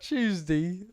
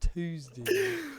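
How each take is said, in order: First: Tuesday begins with a ch sound. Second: Tuesday begins with a d sound. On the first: The speaker calls it wrong. "There's no chew" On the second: The speaker calls it right. "but there there's there's a D"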